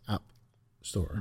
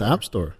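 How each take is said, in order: First: There is a short pause between the words. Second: The words run together without a pause. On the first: It names one company's store. The speaker calls it right. "You have to pronounce the space between app and store as well" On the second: It names a different company's store. The speaker calls it wrong. "Because if it's App Store, that's Amazon"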